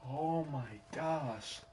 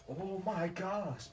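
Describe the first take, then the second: First: Said in the usual way. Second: Oh my gosh, higher and slow; higher exasperated disbelief. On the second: Real, not acted. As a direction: repeat Oh my gosh, pitched up in disbelief. Reacting to brother's reply.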